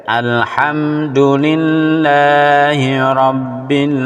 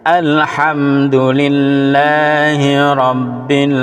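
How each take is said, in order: Both takes have the same delivery.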